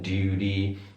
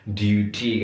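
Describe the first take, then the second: First: The middle T is a soft D-like flap. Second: The middle T is a clear T. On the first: "kalau American" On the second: "kalau British"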